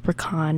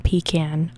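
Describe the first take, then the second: First: "pecan" said as puh-KAHN; Southern pecan pronunciation. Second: "pecan" said as PEE-can; rejected pecan pronunciation. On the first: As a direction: say "pecan" as puh-KAHN, stress on the second syllable. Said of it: "it's pronounced pecan". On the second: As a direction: say "pecan" as PEE-can, stress on the first syllable. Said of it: "It's not pecan". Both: Shown as a demonstration.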